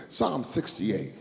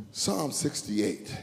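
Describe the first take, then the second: No difference in how they are said.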